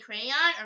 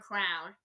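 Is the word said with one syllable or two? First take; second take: two; one. First: The word is said with two syllables. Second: The word is said with one syllable. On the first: "Do you say crayon or crown?" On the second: "Do you say crayon or crown?"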